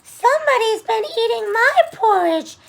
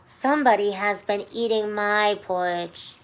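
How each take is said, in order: First: It is said in a high, squeaky voice. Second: It is said in a sweet, low voice.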